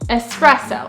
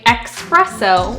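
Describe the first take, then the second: First: It is said with no K sound before the S. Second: It is said with a K sound before the S. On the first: The speaker calls it right. "you want to say it without the K" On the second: The speaker calls it wrong. "with the K sound, like express"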